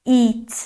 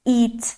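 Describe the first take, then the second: First: The vowel is long, like 'ee'. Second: The vowel is long, like 'ee'.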